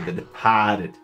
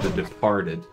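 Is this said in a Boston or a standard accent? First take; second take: Boston; standard. First: It is said in a Boston accent. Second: It is said in a standard accent. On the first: "they say The Departed" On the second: "they don't say The Departed"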